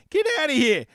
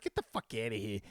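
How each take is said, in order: First: Higher, louder outraged scoff. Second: Low, soft disgusted dismissal; disgusted mutter. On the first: Host scoffing at a bad payout, loud outraged. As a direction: throw it back at them, outraged. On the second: Host scoffing at a bad payout, low disgusted aside. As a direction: toss it off in disgust. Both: Real, not acted.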